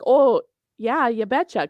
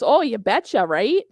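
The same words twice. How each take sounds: First: Chirpy Minnesota "oh yeah, you betcha"; Minnesota accent. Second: Teasing Minnesota "you betcha"; mocking Upper Midwest sing-song; Minnesota accent. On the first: Retold or imitated. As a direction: Upper Midwest twang, sing-song. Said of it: "my Minnesota accent comes out". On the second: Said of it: "And he goes".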